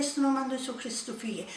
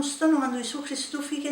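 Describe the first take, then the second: First: Fast, breathless whisper; a hushed rebuke fading out; whispered command. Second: Said in the usual way. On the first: Retold or imitated. Mouth repeating command on its own.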